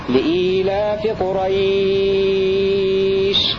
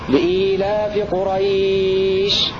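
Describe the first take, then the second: First: The last word's vowel is held for six counts. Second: The last word's vowel is held for four counts. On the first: "المد ست حركات" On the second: "أربع حركات"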